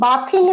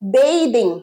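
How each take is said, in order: First: The first syllable sounds like 'bath'. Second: The first syllable sounds like 'bay'. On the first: The speaker calls it wrong. "বাথিং নয়" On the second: The speaker calls it right. "এটার pronunciation কি?"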